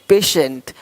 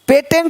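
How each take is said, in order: First: The middle consonant is a 'sh' sound. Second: The middle consonant is a plain 't' sound. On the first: The speaker calls it right. "श पेशेंट" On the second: The speaker calls it wrong. "पेटेंट नहीं"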